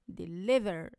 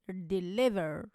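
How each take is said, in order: No difference in how they are said.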